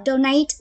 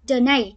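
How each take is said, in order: First: Donate stressed on the first syllable, DO-nate; first way to read donate. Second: Donate stressed on the second syllable, do-NATE; second way to read donate. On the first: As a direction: say donate leaning on DO. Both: Shown as a demonstration. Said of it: "Chúng ta có hai cách đọc".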